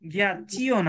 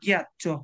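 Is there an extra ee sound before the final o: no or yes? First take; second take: yes; no. First: An extra ee sound comes before the final o. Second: The ending goes straight from ch to o. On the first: The speaker calls it wrong. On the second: The speaker calls it right.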